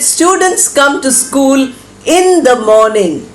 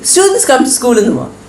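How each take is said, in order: First: The ending is said clearly and audibly. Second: The ending is said softly and swallowed. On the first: The speaker calls it right. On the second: The speaker calls it wrong.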